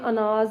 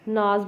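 First: The word begins with a short vowel sound. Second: The opening vowel is dropped entirely.

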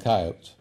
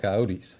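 First: The word is said the way western Americans say it. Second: The word is said the way eastern Americans say it. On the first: "In the West, where I did a lot of the training on coyote controls, they call them coyotes" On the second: "In the eastern part of the United States, they call them coyotes"

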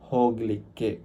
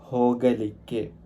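First: The middle vowel is dropped, shortening the word. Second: The middle vowel is fully pronounced. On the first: This is the local, casual form. "ലോക്കലായിട്ട് പറയുന്ന സമയത്ത് ഹോഗ്ലിക്ക് എന്ന് പറയും" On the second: This is the standard form. "ഹോഗലിക്ക് എന്നാണ് പറയുക"

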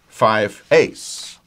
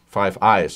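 First: The second word sounds like 'ays'. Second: The second word sounds like 'eyes'. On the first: The speaker calls it wrong. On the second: The speaker calls it right.

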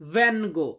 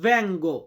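First: A plain n sound comes before the g. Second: An ng sound blends into the g. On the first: The speaker calls it wrong. "অনেকে অনেকে এটাকে বলে ভ্যানগো" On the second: The speaker calls it right. "এটা সঠিক উচ্চারণটা হবে ভ্যাঙ্গো"

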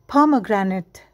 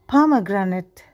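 Both takes have the same delivery.

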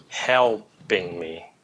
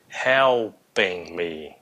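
Both takes have the same delivery.

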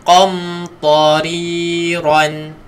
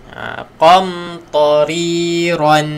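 The two takes are said the same way.

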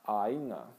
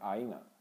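First: The word is said slowly and exaggerated. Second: The word is said quickly and smoothly. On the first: "you really need to exaggerate, especially when you're first off" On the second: "you're going to hear it more fast"

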